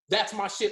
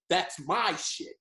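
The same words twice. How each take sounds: First: The stress falls on the word shit. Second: The stress falls on the word my. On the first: The speaker likes the website too. "like I like what's poppin dot net too" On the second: The speaker created the website. "he put the emphasis on the mine"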